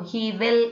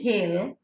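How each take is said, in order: First: Both words are said in full, separately. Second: The words merge into one contracted syllable. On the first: "he will is with he'll" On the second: "he will is with he'll"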